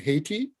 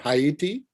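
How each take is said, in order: First: It is said with the usual English pronunciation. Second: It is said with the local Haitian pronunciation.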